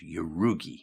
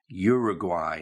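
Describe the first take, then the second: First: The word has a strange, distorted pronunciation. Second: The word has its usual, standard pronunciation. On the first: The speaker calls it wrong. "not Uruguay" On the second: The speaker calls it right. "the pronunciation is Uruguay"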